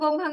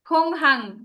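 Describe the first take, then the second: First: It starts with a soft, unaspirated g sound. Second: It starts with a breathy, aspirated k sound. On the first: The speaker calls it wrong. "যারা গোংহাং গোংহাং বলতেছেন" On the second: The speaker calls it right. "ক্ষয়ের উচ্চারণ করবেন"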